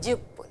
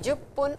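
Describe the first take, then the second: First: The first vowel is 'i'. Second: The first vowel is 'u'. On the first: "whichever you want to say" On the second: "jupun can also be written as jippun"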